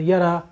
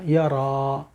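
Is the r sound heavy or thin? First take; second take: thin; heavy. First: The r is thin, without a full vowel. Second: The r is heavy, with a full long vowel. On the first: The speaker calls it wrong. "रा के ऊपर ज़बर भी सही नहीं अदा कर रहे" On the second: The speaker calls it right. "एकदम हमने ऊपर कर दी ज़बान को, तो वो रा अलिफ के साथ पूरी मुफ़ख्खम"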